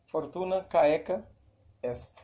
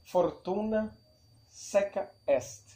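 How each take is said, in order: First: Caeca begins with a hard k sound. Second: Caeca begins with an s sound. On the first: This is how it was said in Cicero's time. "Na época de Cícero se dizia" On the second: This is a later pronunciation. "Tem outras pronúncias"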